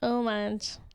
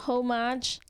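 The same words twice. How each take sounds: First: The word begins without any h sound. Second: The word begins with an audible h sound. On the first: The speaker calls it right. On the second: The speaker calls it wrong.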